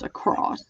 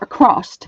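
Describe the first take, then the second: First: The word ends with a plain S sound. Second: The word ends with an added T sound.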